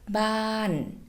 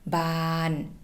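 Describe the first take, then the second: First: The pitch falls from high to low. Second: The pitch stays level in the middle. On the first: It means a house. "this word becomes a falling tone. So we're going to go from high to low" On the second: It means blooming or expanding. "we will have a mid-tone word"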